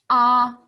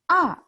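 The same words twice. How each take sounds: First: The pitch stays high and level. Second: The pitch falls sharply from high to low. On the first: "一声, first tone, 一声. That's an open mouth sound" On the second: "fourth tone, 四声. That's a angry sound"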